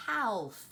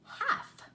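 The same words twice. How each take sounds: First: Half with the L sounded, halff; spelled-out misreading. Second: Half as haf, silent L, high and bright; correct pronunciation. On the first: Teacher showing the wrong reading, L sounded. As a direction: say half with a clear L. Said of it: "looks like it would say". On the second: Teacher modeling the right way, higher pitch. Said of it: "And this word is". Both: Shown as a demonstration.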